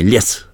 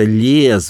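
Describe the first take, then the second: First: The vowel is short and clipped. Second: The vowel is drawn out and long. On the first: "а не лес" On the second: "Ять изначально была более продолжительная гласная"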